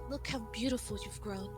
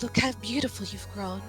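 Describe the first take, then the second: First: It is said quietly in a deep voice. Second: It is said louder in a deep voice.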